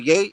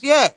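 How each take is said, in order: First: The word rhymes with day. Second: The word rhymes with air. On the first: The speaker calls it wrong. "It ain't no yay" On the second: The speaker calls it right. "It's yeah"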